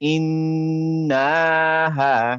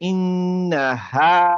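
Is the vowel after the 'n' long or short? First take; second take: long; short. First: The vowel after the n is stretched long. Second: The vowel after the n is short.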